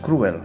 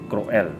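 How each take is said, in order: First: The word is said with English pronunciation. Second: The word is said with Spanish pronunciation. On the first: "in English it's cruel" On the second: "But in Spanish it's cruel"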